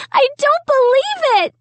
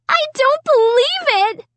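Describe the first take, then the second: First: High shriek falling at the end; still shrieking. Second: High piercing shriek. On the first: Sarah keeps shrieking over the paint mess, falling shriek. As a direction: shriek again, landing it hard. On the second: Sarah shrieking at her ruined carpet, high shriek. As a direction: shriek it in disbelief. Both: A narrator's reading. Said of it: "Sarah kept shrieking".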